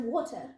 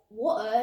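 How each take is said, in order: First: Said in the usual way. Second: "water" said the British way; British-style "water", set against the American; British pronunciation. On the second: Shown as a demonstration. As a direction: say "water" as a Brit would. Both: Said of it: "What's the point of saying loo instead of bathroom".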